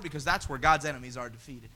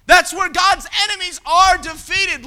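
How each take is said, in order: First: Low and soft, almost to himself; quiet. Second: Loud and high, punching That's; preacher's shout. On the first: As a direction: say it down low before the build. First, low take of repeated line. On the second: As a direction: shout it to the whole congregation. Preacher repeats line as shout. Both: Acted.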